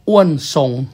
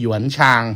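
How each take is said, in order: First: The name is said in a Thai reading. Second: The name is said in a Mandarin reading. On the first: "อันนี้สำเนียงไทยนะครับ" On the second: "ถ้าสำเนียงจีนเนี่ยอ้วนทรงก็คือหยวนชาง"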